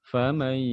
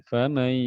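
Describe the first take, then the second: No difference in how they are said.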